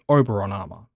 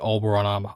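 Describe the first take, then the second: First: The first word is said without an L sound. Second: The first word is said with an L sound. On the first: The speaker calls it wrong. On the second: The speaker calls it right.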